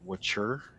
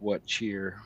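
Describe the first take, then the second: First: It is said blended into one word. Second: It is said as two separate words. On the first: This is how the town's name is really said. The speaker calls it right. "I guess it's pronounced Wachur" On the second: This is how the name is written. The speaker calls it wrong. "the words are just what cheer"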